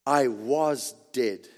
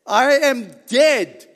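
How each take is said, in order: First: "was dead" slow and lower; deliberate correction. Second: Loud, slow "dead"; stress on DEAD. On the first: Preacher corrects his quote of Christ, slow low "was dead". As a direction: spell out "was dead" slowly, dropping the pitch. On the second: Preacher quotes Christ speaking to John, slow loud stress on "dead". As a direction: draw the phrase out, landing loudly on "dead". Stressed misquote set against "was. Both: Acted.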